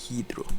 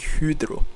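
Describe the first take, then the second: First: The first vowel is a plain 'ee' sound. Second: The first vowel is a rounded front vowel. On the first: The speaker calls it right. "They just pronounce it as E" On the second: The speaker calls it wrong. "They don't say hydro"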